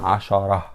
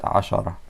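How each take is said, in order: First: The word ends with an added final vowel. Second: The word ends abruptly on a silent consonant. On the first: The speaker calls it wrong. "Not like that" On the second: The speaker calls it right. "You will stop. There is سكون"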